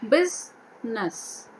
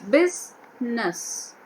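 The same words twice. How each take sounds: No difference in how they are said.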